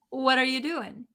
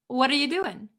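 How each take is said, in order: The two takes are said the same way.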